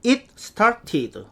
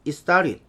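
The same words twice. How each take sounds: First: "it started" slow and word by word, "it seu-tat-ti-deu"; Korean learners' reading. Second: "it started" linked as "istarit", t's softened away; native-speaker pronunciation. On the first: Teacher showing how we read it, slow Korean-style English. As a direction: pronounce each t of "it started" fully. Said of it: "우리는". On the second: Teacher contrasting the native reading, linked and reduced. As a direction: run "it started" together with a flapped t. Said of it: "원어민은". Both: Shown as a demonstration.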